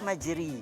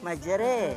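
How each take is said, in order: First: The word ends in an i vowel. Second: The final vowel is tilted strongly toward e. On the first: "Kalau baris di bawah majri" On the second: "Kalau baris imalah majra"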